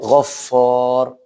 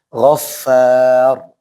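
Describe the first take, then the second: First: The f syllable has a rounded fu vowel. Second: The f syllable has an open fa vowel. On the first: The speaker calls it wrong. "Jangan sampai ghaffar. Fu, fu" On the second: The speaker calls it right. "Tapi fa dulu"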